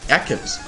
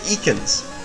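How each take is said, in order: First: The name starts with a short 'eck' sound. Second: The name starts with a long 'eek' sound.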